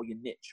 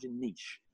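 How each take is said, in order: First: "niche" said as nitch, short i; "niche" ending in a hard tch. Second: "niche" said as neesh, long ee; "niche" ending in a soft sh. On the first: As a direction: rhyme "niche" with pitch. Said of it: "or whatever". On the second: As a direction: rhyme "niche" with leash. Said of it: "Oh, your niche, or whatever". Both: Retold or imitated.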